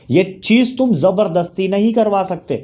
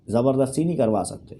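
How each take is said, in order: First: Firm, argumentative delivery; insistent, pressing statement; emphatic insistence. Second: Lower, softer restatement; soft, low afterthought; quiet repeat. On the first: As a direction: drive the point home forcefully. Emphatic argument, then low repeat. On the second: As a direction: drop the voice to restate the point. Low repeat after emphatic statement. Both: Real, not acted.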